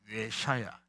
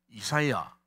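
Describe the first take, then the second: First: The name is said as yeh-sha-ya. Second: The name is said as ee-sa-ya. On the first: This is the original Hebrew form of the name. "히브리 발음은 예샤야입니다" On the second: This is the usual Korean form of the name. "우리말은 이사야지만은"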